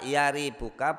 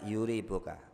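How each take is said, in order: First: The first vowel is an a sound. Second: The first vowel is a u sound. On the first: "Bi fathi awalihi, dengan fathah huruf pertamanya" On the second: "Wa dhammihi, juga boleh pakai huruf dhammah"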